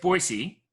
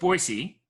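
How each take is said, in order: First: It is pronounced the way locals say it. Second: It is pronounced the way locals say it.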